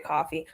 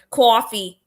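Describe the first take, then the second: First: Said in the usual way. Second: "Coffee" in a loud, overdone accent; exaggerated regional accent. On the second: Shown as a demonstration. Woman teased about her accent repeats coffee, exaggerated accent. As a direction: lean hard on the accented vowel of "Coffee". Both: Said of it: "get mocked for my accent".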